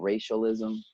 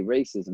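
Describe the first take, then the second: First: "racialism", with an extra syllable in the middle; mispronounced racism. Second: Said in the usual way. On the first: Retold or imitated. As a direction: imitate students fumbling "racism" as "racialism". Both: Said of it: "they couldn't even say racism".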